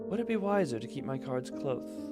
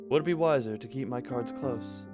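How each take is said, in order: First: The s in 'close' is lisped. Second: The s in 'close' is clear. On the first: The speaker calls it wrong. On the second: The speaker calls it right.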